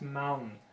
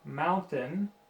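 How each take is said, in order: First: The T sound is dropped before the N. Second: The T sound is clearly pronounced. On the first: The speaker calls it wrong. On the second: The speaker calls it right.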